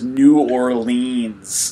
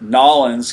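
First: The name is said in full, word by word. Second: The name is squeezed into two short syllables. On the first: The speaker calls it wrong. "no one says New Orleans" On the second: The speaker calls it right. "I'm going to take Nollins"

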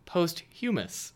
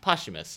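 First: It sounds like post plus human plus ous. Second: It does not sound like post plus human. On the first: The speaker calls it wrong. "you might think posthumous, but it's not" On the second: The speaker calls it right. "It's posthumous"

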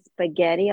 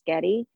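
First: All syllables are pronounced in full. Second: The first syllable is dropped, giving sketty. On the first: "I don't think I ever say spaghetti" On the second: "I always say sketty"

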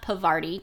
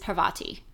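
First: The R sound comes in the second syllable. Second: The R sound comes in the first syllable. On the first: The speaker calls it wrong. "It is not Pavarti to rhyme with Havarti" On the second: The speaker calls it right. "It is Parvati"

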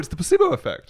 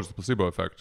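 First: It is said in an emphatic, enthusiastic tone. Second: It is said in a dismissive, deflating tone. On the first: The effect is real and impressive. The speaker calls it right. "Like we have to say, no" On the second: The effect is trivial and not real. The speaker calls it wrong. "Instead of saying like, oh"

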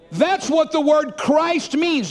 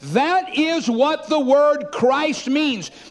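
First: The sentence is spoken at a normal pace. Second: The sentence is spoken slowly and deliberately.

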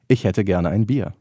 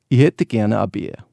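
First: It is said in standard High German. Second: It is said in a Bavarian accent.

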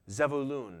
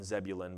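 First: The name is said in its original Hebrew form. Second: The name is said in its familiar English form. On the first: This is how it was originally pronounced. "that would have been pronounced Zebulun" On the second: This is the usual modern pronunciation. "A little different than Zebulun"

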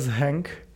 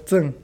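First: The name is pronounced with Czech sounds. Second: The name is pronounced with Chinese sounds. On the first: "V češtině bys to mělo číst jako zhenk" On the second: "v čínštině cen"

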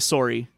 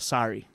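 First: It is said with a Canadian accent. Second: It is said with an American Midwest accent. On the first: "we say sorry" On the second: "we would need to change that to sorry"

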